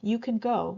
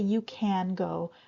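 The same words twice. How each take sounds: First: Can is short and reduced, sounding like kin. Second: Can is said fully with an open a vowel. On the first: The speaker calls it right. "it sounds more like kin. We reduce it, make it short" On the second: The speaker calls it wrong. "we don't say you can go"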